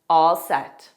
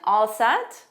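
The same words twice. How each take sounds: First: The pitch falls at the end. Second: The pitch rises at the end. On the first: It replies that one is ready. "lower intonation" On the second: It asks whether someone is ready. "Rising intonation"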